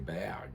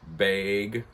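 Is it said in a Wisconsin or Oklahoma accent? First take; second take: Oklahoma; Wisconsin. First: It is said in an Oklahoma accent. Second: It is said in a Wisconsin accent.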